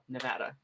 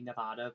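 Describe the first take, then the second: First: It is said with the local American vowels. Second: It is said with Spanish-style vowels. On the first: "that's just not how we say it here" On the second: "the proper Spanish pronunciation would be Nevada"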